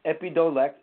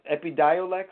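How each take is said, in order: First: EPIDIOLEX said as eppy-DOE-lex, pitched up; tentative pronunciation. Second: EPIDIOLEX said as eppy-DIE-oh-lex; second-guess pronunciation. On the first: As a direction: try EPIDIOLEX as ep-ee-doh-lex, higher. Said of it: "it's harder to pronounce". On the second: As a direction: sound out EPIDIOLEX as ep-ee-dye-oh-lex. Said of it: "or something like that". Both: Shown as a demonstration.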